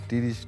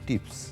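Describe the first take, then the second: First: The word is said without a p sound. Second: The word is said with a p sound. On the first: The speaker calls it wrong. "ওটা তিরিশ না" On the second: The speaker calls it right. "ওটা হলো টিপস"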